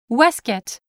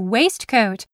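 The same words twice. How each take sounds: First: The parts are shortened and run together. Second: Both parts are pronounced as spelled. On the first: This is the British way of saying it. "instead of the British waistcoat" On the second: This is the American way of saying it. "they learned to say waistcoat the way it is spelled"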